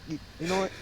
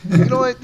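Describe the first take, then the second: First: Said in the usual way. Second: Sudden loud outburst; loud burst. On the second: Acted. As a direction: shout it out. Repeats line then shouts it.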